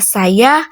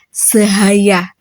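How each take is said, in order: First: It is said plainly with no added h sound. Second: An extra h sound is inserted after the first consonant. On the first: The standard pronunciation. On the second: A speaker with a speech disorder says it.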